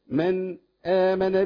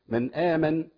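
First: A brief pause comes before the second word. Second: The two words run together with no pause. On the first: "لكن ايه؟" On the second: "في العادي بدون سكت"

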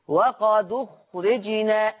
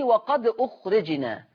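First: The glottal stop is dropped, its vowel moved back. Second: The glottal stop before the second word is kept. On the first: "شيلوا الهمزة بتاعت أخرجنا" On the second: "عايز أعمل لها نقل"

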